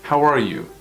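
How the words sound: The voice falls at the end. The speaker calls it right. "We don't go with an uptone"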